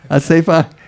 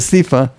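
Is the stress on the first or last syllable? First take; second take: last; first. First: The stress is on the last syllable. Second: The stress is on the first syllable. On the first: The speaker calls it right. "In Hebrew, the syllable is on the last syllable" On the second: The speaker calls it wrong. "not on the first one"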